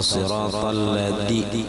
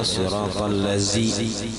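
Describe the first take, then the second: First: The consonant is a d sound. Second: The consonant is a z sound. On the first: "dipakai dal" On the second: "digantinya dengan zai"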